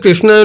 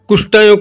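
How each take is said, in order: First: The word is pronounced with its standard sounds. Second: The word is pronounced with distorted sounds. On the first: The speaker calls it right. "ଠିକ ସେ କୃଷ୍ଣାୟ ନ କହିକିରି" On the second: The speaker calls it wrong. "କୃଷ୍ଣାୟ କହୁଥିବେ"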